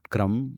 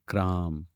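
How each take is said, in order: First: The vowel is short. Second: The vowel is long. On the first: The speaker calls it wrong. "not Kram" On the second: The speaker calls it right. "but Kram"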